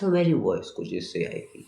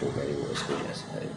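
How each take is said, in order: First: It is spoken in a high pitch. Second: It is spoken in a low pitch.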